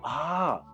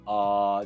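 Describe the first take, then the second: First: It is said with lively, varied pitch. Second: It is said in a flat monotone. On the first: The listener has just understood something. "that means like ah, now I get it" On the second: It is only a filler while thinking. "just monotone"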